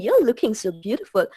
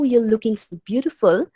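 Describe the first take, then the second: First: The compliment sounds mocking and insincere. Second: The compliment sounds warm and sincere. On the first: The compliment is not really meant. "you can make out that I'm being insincere" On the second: The compliment is genuinely meant. "you can make out the sincerity in my voice"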